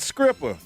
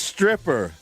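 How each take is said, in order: First: The word begins with an 'skr' sound. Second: The word begins with an 'str' sound. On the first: The speaker calls it wrong. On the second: The speaker calls it right.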